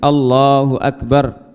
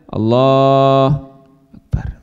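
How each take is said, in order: First: The phrase is pronounced clearly to the end. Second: The phrase is clipped, with sounds dropped. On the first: The speaker calls it right. "Tapi dijelaskan sampai a, akhir" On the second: The speaker calls it wrong. "Jadi tidak Allah Akbar"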